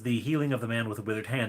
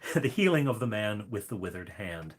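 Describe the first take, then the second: First: The phrase is spoken very quickly. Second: The phrase is spoken slowly. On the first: "that was very fast" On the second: "let me say that slower"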